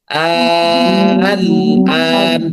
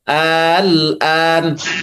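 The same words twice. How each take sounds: First: The second hamza becomes a long drawn vowel. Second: The second hamza is softened, not fully pronounced. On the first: "Dibaca ibdal" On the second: "dibaca tashil"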